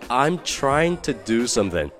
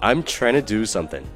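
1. Trying to 要完整说。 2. Trying to 弱化成 tryna。

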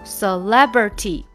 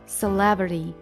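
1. 这个t发清楚的t音。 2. 这个t被弱化，听起来像d。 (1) "不对吧？" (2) "为什么这个t 就变成d 这种感觉了"

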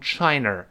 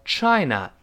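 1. 这个词结尾多加了一个r音。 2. 这个词结尾没有r音。

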